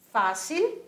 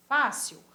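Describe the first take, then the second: First: Fácil ending in a clear l, rising; Fácil en español; Spanish pronunciation. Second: Fácil ending in a w sound, falling; fácil em português; Portuguese pronunciation. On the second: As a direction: say fácil the Brazilian way. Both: Shown as a demonstration. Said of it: "a sua pronúncia é diferente".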